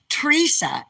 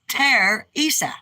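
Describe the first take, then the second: First: The name is squeezed into two syllables, Treesa. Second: The name is said with three full syllables. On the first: The speaker calls it wrong. "like T R E E S A" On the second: The speaker calls it right. "Say it correctly"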